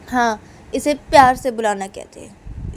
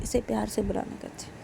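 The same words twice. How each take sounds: First: Louder, higher "प्यार"; "प्यार" punched in an acted comeback; emphatic retort. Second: Quietly insistent; subdued repetition. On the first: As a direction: insist with a loud lift on "प्यार". Uma answers back, first take. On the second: Acted. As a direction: drop the volume and say it under control. Uma repeats it, second take.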